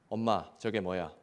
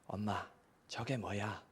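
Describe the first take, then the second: First: It is said louder than before. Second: It is said at normal, soft volume.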